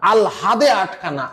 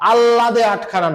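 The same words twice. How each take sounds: First: আল হাদে with a clear h after l; correct pronunciation. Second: আল্লাদে with double l, no h; wrong pronunciation. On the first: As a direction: say "al-hade" in আল হাদে আটখানা. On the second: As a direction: say আল্লাদে আটখানা as "allade atkhana". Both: Shown as a demonstration. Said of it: "আল্লাদে আটখানা না".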